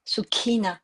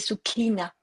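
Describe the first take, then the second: Both takes have the same delivery.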